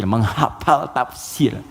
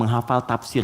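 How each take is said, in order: First: Drawn-out, syllable by syllable; deliberate, very slow repeat; slow emphasis. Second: Said in the usual way. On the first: Real, not acted. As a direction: stretch it slowly for weight. Repeats phrase slowly for emphasis.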